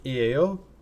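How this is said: The voice stays flat at the end.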